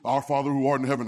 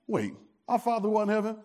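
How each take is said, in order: First: It is recited in a flat, routine way. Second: It is said in an amazed, questioning way.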